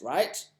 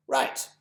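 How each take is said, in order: First: Right rising as a question; questioning tune. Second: Right said high and firm, settling it; confirming. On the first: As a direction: ask right, lifting it up. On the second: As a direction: answer yourself: Right. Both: Acted.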